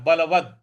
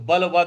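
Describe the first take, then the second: First: The word ends on a bare consonant. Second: The word ends with a full vowel. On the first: The speaker calls it right. "द पर हलंत है" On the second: The speaker calls it wrong. "नहीं बोलना है"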